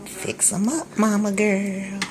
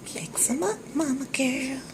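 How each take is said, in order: First: Said in the usual way. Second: High coaxing voice. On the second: Real, not acted. Cheering on her cooking.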